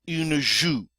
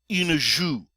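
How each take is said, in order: The two takes are said the same way.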